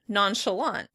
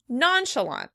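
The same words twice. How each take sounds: First: The stress is on the last syllable. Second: The stress is on the first syllable. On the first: "In American English, we would pronounce it on the last syllable" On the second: "In British English, it would be stressed on the first syllable"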